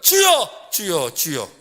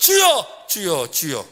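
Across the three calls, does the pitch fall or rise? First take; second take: fall; fall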